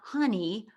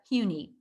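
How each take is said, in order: First: The first syllable sounds like 'huh'. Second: The first syllable sounds like 'hyoo'. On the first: The speaker calls it wrong. "it's not honey" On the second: The speaker calls it right. "hue like the color and knee like the body part"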